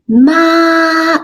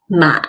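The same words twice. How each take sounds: First: The pitch stays high and level. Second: The pitch falls low, then rises again. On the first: "that's the first tone" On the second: "The third tone. It goes down and then up"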